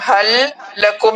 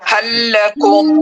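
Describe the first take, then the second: First: The l of hal is kept separate. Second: The l of hal merges into lakum. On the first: The speaker calls it wrong. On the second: The speaker calls it right.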